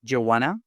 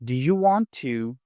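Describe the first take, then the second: First: "Do you want to" squeezed into "d'you wanna"; casual run-together "d'you wanna"; reduced form. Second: "Do you want to" with each word distinct; unreduced "Do you want to"; careful full form. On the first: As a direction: blend it into "d'ya wanna", rising. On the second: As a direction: pronounce "want to" as two full words. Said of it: "Instead of". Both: Shown as a demonstration.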